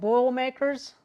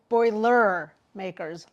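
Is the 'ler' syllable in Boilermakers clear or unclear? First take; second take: unclear; clear. First: The 'ler' syllable is not clearly enunciated. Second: The 'ler' syllable is clearly enunciated. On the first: The speaker calls it wrong. "apparently I said Boilermakers" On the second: The speaker calls it right. "it's Purdue Boilermakers"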